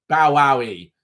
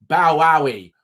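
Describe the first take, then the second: Both takes have the same delivery.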